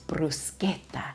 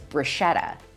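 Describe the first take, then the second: First: The middle consonant is a hard K. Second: The middle consonant is soft, not a K. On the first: The speaker calls it right. "it makes a hard K sound" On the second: The speaker calls it wrong. "the most common mispronunciation"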